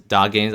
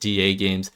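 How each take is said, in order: First: The first part is said as one word. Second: The first part is spelled out as letters. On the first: The speaker calls it wrong. "I used to pronounce it a lot as Dog Games" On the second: The speaker calls it right. "I think it's pronounced D A Games"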